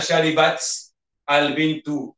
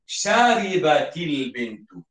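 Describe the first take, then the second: First: The words are halting, with a break between them. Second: The words run together smoothly with a linking vowel. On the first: The speaker calls it wrong. "bacaan kita itu macam tersekat-sekat" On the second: The speaker calls it right. "Untuk baca sambung, mesti dihidupkan"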